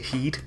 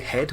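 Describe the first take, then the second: First: The vowel is a long 'ee' sound. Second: The vowel is the standard short 'e' sound. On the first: "we say heed" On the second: "rather than we say head"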